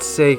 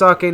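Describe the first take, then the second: First: The word is said with English-style sounds. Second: The word is said with Japanese-style sounds. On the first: The speaker calls it wrong. "not sake" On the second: The speaker calls it right. "it's pronounced sake, ... It's Japanese"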